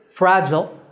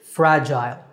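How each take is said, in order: First: The second syllable is a short, reduced 'jul'. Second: The second syllable rhymes with 'mile'. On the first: "So American" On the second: "and British"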